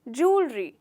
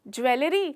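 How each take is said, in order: First: It is said with two syllables, jool-ree. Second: It is said with three syllables, jew-el-ree. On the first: The speaker calls it right. "इसका actual pronunciation है जूलरी" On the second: The speaker calls it wrong. "ज्वेलरी नहीं"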